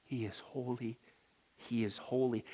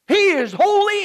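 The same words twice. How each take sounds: First: He is holy said soft and low; reverent hush. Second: He is holy cried out high and loud; proclaimed loud. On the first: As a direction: breathe He is holy in awe. Reverent hushed repetition. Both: Acted.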